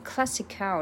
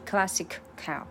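First: The two words run together without a break. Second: The two words are said with a break. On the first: The speaker calls it right. "两个就直接连在一起了" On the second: The speaker calls it wrong. "不是classic cow"

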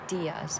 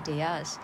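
First: The stress is on the first syllable. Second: The stress is on the second syllable. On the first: The speaker calls it right. "注意重音在d 上面" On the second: The speaker calls it wrong. "不是"

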